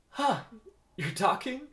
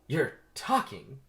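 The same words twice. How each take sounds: First: High, loud startled question; startled disbelief. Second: Slow, raised, louder repeat; stunned disbelief. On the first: Vanessa hears a bee speak, startled. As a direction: react in shock, voice jumping up. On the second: Vanessa still stunned that the bee speaks, incredulous. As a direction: draw it out, unable to believe it. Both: Acted.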